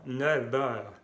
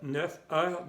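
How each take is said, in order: First: Neuf heures said nœv œr, f voiced as v and slow; f linked as v. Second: Neuf heures with f kept, no v linking; wrong linking. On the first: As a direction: link neuf heures with a v sound, slowly. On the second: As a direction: say neuf heures ending neuf on a hard f. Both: Shown as a demonstration. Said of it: "no, neuf heures".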